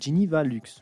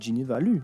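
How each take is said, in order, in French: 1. Le son x final se prononce. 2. Le son x final est muet.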